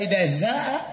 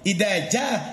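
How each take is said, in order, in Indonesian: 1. Kata kedua diawali dengan bunyi z. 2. Kata kedua diawali dengan bunyi j.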